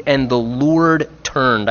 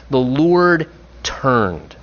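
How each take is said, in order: First: "And the Lord turned" slow, weight on Lord; slow, savoured. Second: "The Lord turned" very slow, weight on Lord; slower, savoured. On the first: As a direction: dwell on "Lord". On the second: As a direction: let "Lord turned" linger. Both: Shown as a demonstration. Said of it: "I just love the way the phrase reads".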